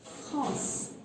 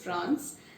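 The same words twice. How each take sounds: First: It is pronounced the French way. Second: It is pronounced the English way. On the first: The speaker calls it right. "but in French it's France" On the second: The speaker calls it wrong. "In English it's France"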